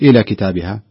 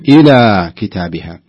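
First: The long vowel is clipped very short. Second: The long vowel is held for two counts. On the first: The speaker calls it wrong. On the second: The speaker calls it right.

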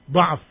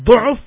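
First: The first vowel is an open a sound. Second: The first vowel is a rounded u sound. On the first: It refers to weakness of thinking or memory. "dha'f dengan fathah dipakai kelemahan berfikirnya atau kelemahan hafalannya" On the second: It refers to weakness of the body. "kalau dengan dhammah dhu'f biasanya pada badannya"

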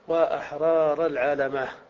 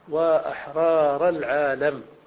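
First: A long a and a final h are added. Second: The phrase ends plainly on the final m. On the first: "وعند الوقف تزيد هاء" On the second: "على الصورة الأولى"

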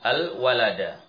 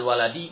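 First: The word ends with the vowel a. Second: The word ends with the vowel i. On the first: The noun is in the accusative case. "kalau seandainya al-waladu saya baca menjadi al-walada" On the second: The noun is in the genitive case. "Dibaca al-waladi maka tidak dikatakan mubtada dan khobar"

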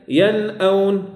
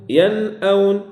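Both takes have the same delivery.

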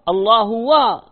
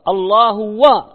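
Both takes have the same delivery.

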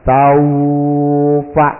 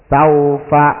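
First: The 'au' sound is held long. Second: The 'au' sound is held short. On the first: The speaker calls it wrong. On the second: The speaker calls it right.

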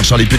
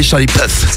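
First: The surname ends with a hard t sound. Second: The surname ends with a soft th-like sound. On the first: The speaker calls it wrong. "pour lui demander comment ça fait d'être une pute" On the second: The speaker calls it right. "ça se dit"

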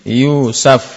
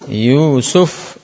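First: The second syllable has the vowel a. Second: The second syllable has the vowel u. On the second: "Pakai yu, nah yu suf"

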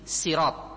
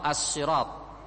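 First: It begins with a plain, light s sound. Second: It begins with a heavy, emphatic s sound. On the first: "yang pertama dengan sin" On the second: "Yang kedua dibaca dengan sot"

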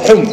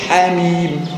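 First: The letters are joined and read as one short word. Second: Each letter is named separately as two letter names. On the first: It is an ordinary word with a root meaning. "حم أو حم ممكن تنطق صح كده" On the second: It is a pair of disjoined letters opening a chapter. "إنما هنا لا تنطق تقول حاميم"

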